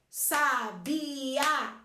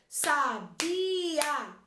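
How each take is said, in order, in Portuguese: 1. As duas últimas vogais são pronunciadas em sílabas separadas. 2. As duas últimas vogais são pronunciadas em sílabas separadas.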